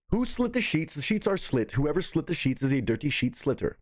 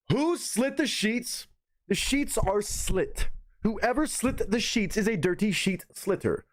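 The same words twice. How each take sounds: First: "Who slit the sheets?" said at normal speed; quicker run-through. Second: "Who slit the sheets?" slow and higher; slow careful diction. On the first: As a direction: rattle it off at talking speed. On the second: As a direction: drag each word out, high and careful. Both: Shown as a demonstration. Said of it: "let me do 'em the regular way".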